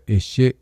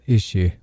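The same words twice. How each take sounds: First: The word ends with a choked glottal stop. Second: The word ends openly without a glottal stop. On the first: The speaker calls it right. "You hear that choking sound at the end?" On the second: The speaker calls it wrong. "Not ishi"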